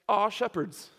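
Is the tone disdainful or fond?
fond. It is said fondly, like something sweet.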